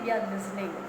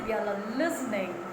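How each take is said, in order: First: The verb is not given any stress. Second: The stress falls on the verb listening. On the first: The speaker calls it wrong. "Don't say" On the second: The speaker calls it right. "For a verb, give stress"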